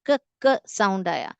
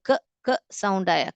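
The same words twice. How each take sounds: The two takes are said the same way.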